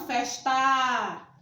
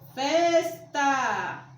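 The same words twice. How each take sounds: First: The stress is on the last syllable. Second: The stress is on the first syllable. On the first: The speaker calls it wrong. "e não tá" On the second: The speaker calls it right. "A sílaba tônica é fes"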